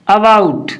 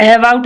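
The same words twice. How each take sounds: First: अबाउट said uh-bout, with a neutral first vowel; short "a" opening. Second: अबाउट mispronounced with "ai" at the start, ai-bout; wrong "ai" opening. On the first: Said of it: "इसको पढ़ते हैं अ". (अबाउट को छोटे "अ" से शुरू करें) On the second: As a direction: open अबाउट with the vowel of "cat". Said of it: "नहीं पढ़ते हैं इसको". (अबाउट को "ऐबाउट" बोलें) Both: Shown as a demonstration.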